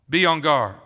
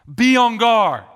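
First: Said in the usual way. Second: "Be on guard." higher and louder, punching "Be"; urgent command. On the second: Acted. Preacher warning the church, loud urgent command.

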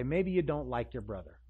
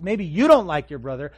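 First: Said in the usual way. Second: YOU and DON'T punched much louder; emphatic contrast. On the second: Acted. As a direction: hit "you don't like" hard and loud. Repeated hard against "he likes.

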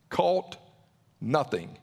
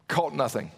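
First: A heavy beat, then nothing falls away low; slow dramatic repeat. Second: Said in the usual way. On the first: Shown as a demonstration. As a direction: let the pause sink before nothing.

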